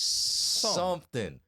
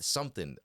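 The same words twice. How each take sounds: First: The word is stretched out and drawn long. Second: The word is said at normal length. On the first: It means the thing did nothing. "if I'm talking backwards" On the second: It refers to an actual thing. "in regular talk"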